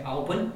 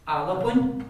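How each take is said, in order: First: Albun run together with no extra vowel; the wrong way, Albun clipped; how Irish is not said; no helper vowel. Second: Alabun with an extra vowel between L and B; Irish learners hearing the helper vowel; epenthetic vowel. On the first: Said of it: "we don't say Albun". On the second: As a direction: slip a little vowel in: Alabun. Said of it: "we say Alabun". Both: Shown as a demonstration.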